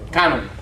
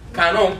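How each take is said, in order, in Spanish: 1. El acento está en la primera sílaba. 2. El acento está en la segunda sílaba. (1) "con acento sobre la A" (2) "discúlpame, un gringo que no sabe hablar español ni pronunciarlo"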